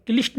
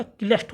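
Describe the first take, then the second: First: क्लिष्ट said "kilisht", with an i; wrong vowel. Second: Said in the usual way. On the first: Shown as a demonstration. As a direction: give क्लिष्ट a short i. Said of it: "नहीं होता". (क्लिष्ट में इ की ध्वनि) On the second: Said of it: "होता".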